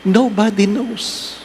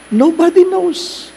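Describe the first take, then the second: First: Said in the usual way. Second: NOBODY sung out high; preacher driving the point home; emphatic repeat. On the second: Shown as a demonstration. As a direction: lift the word NOBODY way up.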